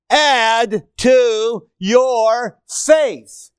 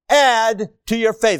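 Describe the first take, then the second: First: Drawn out very slowly, louder; preacher reads the verse, slow and stressed; slow emphatic reading. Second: Said in the usual way. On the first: Shown as a demonstration. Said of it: "reading verse emphatically". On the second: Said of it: "repeat of verse".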